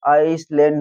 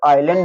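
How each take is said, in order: First: An s sound is pronounced after the first vowel. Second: No s sound is pronounced after the first vowel. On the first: The speaker calls it wrong. "आपने गलत पढ़ दिया" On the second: The speaker calls it right. "एस silent हो जाता है"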